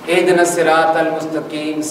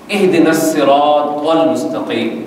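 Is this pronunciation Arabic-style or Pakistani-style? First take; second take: Pakistani-style; Arabic-style. First: The Arabic sounds are flattened into local Pakistani pronunciation. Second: The Arabic sounds are pronounced with careful tajweed articulation. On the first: The speaker calls it wrong. "Pakistan का तलफ़्फ़ुज़" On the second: The speaker calls it right. "अब मैं उसका सही तलफ़्फ़ुज़ पढ़ने लगा हूँ"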